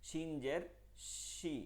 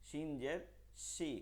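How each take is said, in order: The two takes are said the same way.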